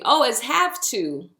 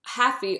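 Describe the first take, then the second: First: Said in the usual way. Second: Haffy said with a clear f for the v, like the lyric; patois word. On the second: Shown as a demonstration.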